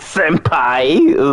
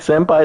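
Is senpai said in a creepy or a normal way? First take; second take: creepy; normal. First: It is said in a creepy, suggestive way. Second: It is said in a plain, ordinary way. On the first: "it's like senpai. It's like, ew, don't talk to me like this. I feel dirty" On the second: "it's not like senpai"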